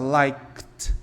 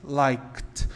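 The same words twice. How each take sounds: First: It is one syllable ending in k and t. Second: It is one syllable ending in k and t.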